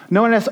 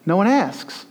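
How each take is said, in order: First: One hit higher and louder; "No one asks" with weight on one; stress on one. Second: Said in the usual way. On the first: Shown as a demonstration. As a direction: lean hard into "one".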